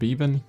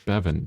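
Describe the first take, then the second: First: The first vowel is long, as in beaver. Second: The first vowel is short, as in heaven. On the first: The speaker calls it wrong. "it's not beaver with an N. That's not how you pronounce it" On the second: The speaker calls it right. "which is like heaven, but with a B instead of an H"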